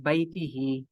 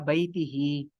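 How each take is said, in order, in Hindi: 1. शब्द 'hi' ध्वनि से खत्म होता है। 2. शब्द 'hi' ध्वनि से खत्म होता है।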